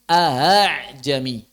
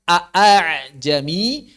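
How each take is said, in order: First: The second glottal stop is softened, almost breathy. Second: Both glottal stops are pronounced fully. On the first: This follows the transmitted reading. "menjadi ahajami" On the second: This is the original form of the word. "Yang asalnya"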